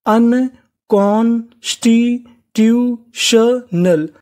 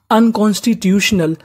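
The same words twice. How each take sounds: First: "अनकॉन्स्टिट्यूशनल" very slowly, one syllable at a time; broken into pieces. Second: Said in the usual way. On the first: Shown as a demonstration. Teacher breaking down a long word for learners, "अनकॉन्स्टिट्यूशनल" slowly syllable by syllable. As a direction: sound out "अनकॉन्स्टिट्यूशनल" piece by piece with clear gaps. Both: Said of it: "टुकड़ों में तोड़ तोड़ के पढ़िए".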